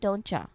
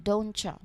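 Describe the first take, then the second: First: The T and Y merge into a CH sound. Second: The same.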